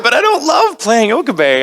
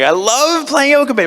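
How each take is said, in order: First: Don't hit hard; stress on don't. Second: Slower, love leaned on; stress on love. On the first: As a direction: punch the word don't. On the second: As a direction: hit love, not don't. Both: Shown as a demonstration.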